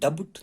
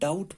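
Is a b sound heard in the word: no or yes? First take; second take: yes; no. First: The word is said with a b sound. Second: The word is said without any b sound. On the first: The speaker calls it wrong. "मैंने डबट नहीं पढ़ा" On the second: The speaker calls it right. "पढ़ने में मैंने डाउट पढ़ा"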